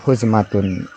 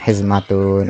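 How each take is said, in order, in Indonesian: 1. Vokal pertama adalah bunyi u. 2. Vokal pertama adalah bunyi i. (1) "bidomil ha, bisa dibaca juga huzmatun" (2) "bikasril ha ... dibacanya hizmatun"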